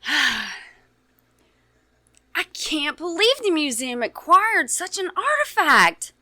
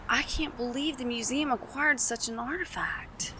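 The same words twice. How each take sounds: First: It is said in an excited tone. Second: It is said in a matter-of-fact tone.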